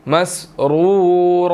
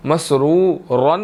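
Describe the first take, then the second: First: "मसरूरा" with long final a; "मसरूरा" slow, open ending; right ending. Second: "मसरूरन" ending in -n; "मसरूरन" to avoid; wrong ending. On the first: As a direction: stretch the end of "मसरूरा". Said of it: "नहीं पढ़ेंगे, मसरूरा". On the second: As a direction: say "मसरूरन" with nunation. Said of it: "मसरूरन नहीं पढ़ेंगे". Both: Shown as a demonstration.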